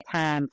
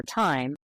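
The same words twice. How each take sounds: First: "time" said as "tahm"; Southern vowel in time. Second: Said in the usual way. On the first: Shown as a demonstration. Linguist explaining a possible fake, "time" as "tahm". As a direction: drop the glide in "time", Southern style. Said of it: "she needs to say". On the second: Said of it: "for time".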